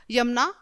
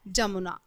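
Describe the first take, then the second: First: Said in the usual way. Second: "जमुना" begun with a J sound; wrong form with J. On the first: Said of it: "यमुना right शब्द है". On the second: Shown as a demonstration. Teacher reads children the misspelling, J-initial "जमुना". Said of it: "जबकि जमुना कुछ नहीं होता".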